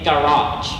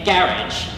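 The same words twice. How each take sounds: First: It is said with an American pronunciation. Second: It is said with a British pronunciation. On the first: "for the United States, we might say" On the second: "the United Kingdom might say"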